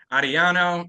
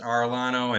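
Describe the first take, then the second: First: The name is pronounced with Spanish sounds. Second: The name is pronounced with English sounds. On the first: "it Spanish, it's Ariano" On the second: "and English, Arellano"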